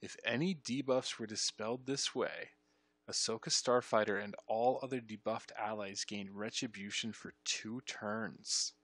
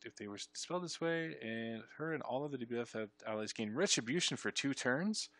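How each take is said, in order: First: Deliberate reading with TURNS stretched out; slower re-read. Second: Said in the usual way. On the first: Shown as a demonstration. Player re-reading the debuff text, slow and deliberate. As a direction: spell it out carefully, dragging the final words.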